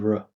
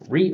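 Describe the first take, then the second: First: The syllable has a reduced schwa vowel. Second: The syllable has a full, clear vowel. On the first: The speaker calls it right. "It's gonna be r" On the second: The speaker calls it wrong. "we're not gonna say re or re"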